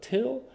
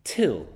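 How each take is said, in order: First: Till lifted high with a rising tune; stress on till. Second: Said in the usual way. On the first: Shown as a demonstration. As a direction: lean on the word till so it rings. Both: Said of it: "notice that word".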